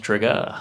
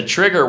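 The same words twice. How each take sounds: First: "trigger" with the final R dropped, ending in "-ah"; "trigger" ending on an open "ah"; mock corrected pronunciation. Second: Said in the usual way. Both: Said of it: "I think it's pronounced trigger".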